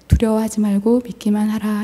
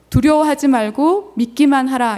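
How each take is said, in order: First: It is said in a small, quiet voice. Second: It is said in a loud voice.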